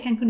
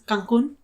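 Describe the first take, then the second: First: The name is said with an English accent. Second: The name is said with a Spanish accent.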